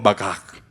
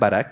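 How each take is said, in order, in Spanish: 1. Se dice con un sonido de r gutural. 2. Se dice con una r simple del español. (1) "Pero es como Bagak, algo así" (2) "que es como la podemos leer"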